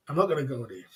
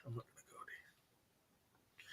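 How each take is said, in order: First: Said in the usual way. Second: Hushed whisper, barely voiced. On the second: Real, not acted. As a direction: say it under your breath. Muttered aside before repeating it.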